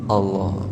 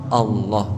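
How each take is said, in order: No difference in how they are said.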